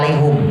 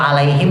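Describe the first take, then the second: First: The last syllable has a 'u' vowel. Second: The last syllable has an 'i' vowel. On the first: This is the reading of another recitation tradition. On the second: This is the common reading used locally.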